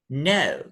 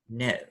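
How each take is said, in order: First: The pitch falls from very high to low. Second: The pitch falls from low to lower. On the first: "the intonation is high falling" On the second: "With the low drop, it would sound"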